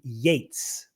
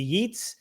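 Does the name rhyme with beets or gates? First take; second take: gates; beets. First: The vowel sounds like the one in gates. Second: The vowel sounds like the one in beets. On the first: The speaker calls it right. "it's actually W B. Yeats" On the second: The speaker calls it wrong. "your ignoramus pronunciation"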